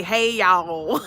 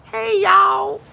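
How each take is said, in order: First: Loud, drawn-out Southern "hey, y'all"; Southern greeting. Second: Very high, loud Southern holler; hollered Southern greeting. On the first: Showing how folks down south say hello, Southern greeting. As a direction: holler a friendly Southern hello. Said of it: "down south we say". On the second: Streamer showing viewers a down south greeting, hollered Southern. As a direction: call it out big and Southern, pitched way up. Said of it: "We say". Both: Shown as a demonstration.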